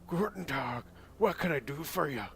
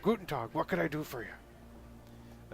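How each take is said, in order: First: It is spoken in a Scottish-sounding accent. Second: It is spoken in a German-sounding accent. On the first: The speaker calls it wrong. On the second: The speaker calls it right.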